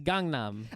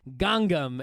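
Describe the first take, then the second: First: The middle N sound is clearly pronounced. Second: The middle N sound is left out. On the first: The speaker calls it right. "there's another N in there. It's Gangnam" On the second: The speaker calls it wrong. "you're like Gangnam"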